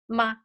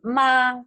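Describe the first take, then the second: First: The syllable is short and light, toneless. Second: The pitch stays high and level. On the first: It is a question particle. "it doesn't have a tone" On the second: It means mother. "first tone is ma"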